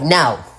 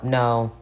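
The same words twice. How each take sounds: First: The word is said in a disgusted, scornful tone. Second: The word is said in a plain, neutral tone. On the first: The man is contemptible for even asking. "Like y'all have attitude. ... the tone, the attitude, the energy" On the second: A simple polite refusal. "y'all be thinking like, oh, we be telling them no"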